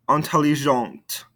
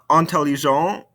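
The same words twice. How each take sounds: First: "Intelligente" falling onto an audible T; sounded ending consonants. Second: "Intelligent" rising on an open nasal vowel; no T at the end of "Intelligent"; silent ending consonants. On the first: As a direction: release the T of "Intelligente". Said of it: "makes us pronounce those ending consonants". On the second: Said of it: "these ending consonants". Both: Shown as a demonstration.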